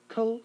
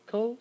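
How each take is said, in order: No difference in how they are said.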